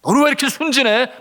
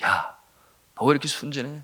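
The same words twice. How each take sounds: First: Loud, high tempter's jab; raised, needling challenge; Satan's taunt. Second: Lightly voiced tempter, restrained; a hint of a needling tempter; understated taunt in near-usual voice; Satan's whisper. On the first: Retold or imitated. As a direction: throw it out as a mocking accusation. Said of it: "그와 같은 속삭임으로". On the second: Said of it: "사탄이 속삭이는 거예요".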